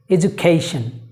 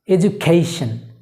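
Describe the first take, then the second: No difference in how they are said.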